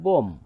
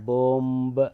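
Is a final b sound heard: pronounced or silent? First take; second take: silent; pronounced. First: The word ends without a b sound. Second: The word ends with an audible b sound. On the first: The speaker calls it right. "যেমন বোম" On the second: The speaker calls it wrong. "এটাকে কিন্তু এভাবে উচ্চারণ করা যাবে না"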